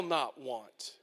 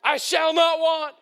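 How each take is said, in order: First: Low, slow and hushed; a low, slow, hushed vow; quiet. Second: NOT shouted higher and louder; a preacher's shouted reply to himself. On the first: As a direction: drop it to a near murmur. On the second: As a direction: cry it out to the back row. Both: Acted. Quiet take then shouted repeat.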